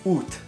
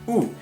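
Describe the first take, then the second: First: The word ends with a clear T sound. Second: The word ends on the vowel, without T. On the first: This is how it is said in France. "You pronounce the T at the end" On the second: This is how it is said in Canada. "you don't pronounce the T, so it just sounds like oo"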